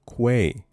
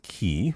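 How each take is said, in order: First: The word begins with a kw sound. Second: The word begins with a plain k sound. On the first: The speaker calls it right. "with a Q" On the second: The speaker calls it wrong. "Not key. I don't know who says key"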